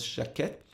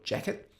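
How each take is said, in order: First: The name is said the French way. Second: The name is said the American way.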